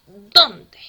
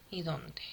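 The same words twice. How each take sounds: First: "dónde" punched very loud on the first syllable; stressed dónde. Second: Said in the usual way. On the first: Shown as a demonstration. Teacher contrasts the pronouns, stressing "dónde" as the one with an accent. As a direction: hit "dónde" hard, as the accented word. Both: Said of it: "Sin tilde".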